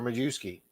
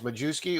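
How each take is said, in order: First: The J sound is left out of the name. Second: The J sound is pronounced in the name.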